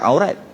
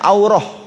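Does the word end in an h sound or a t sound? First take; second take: t sound; h sound. First: The word ends with a t sound. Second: The word ends with an h sound. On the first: The speaker calls it wrong. "bukan aurat" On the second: The speaker calls it right. "yang tepatnya aurah"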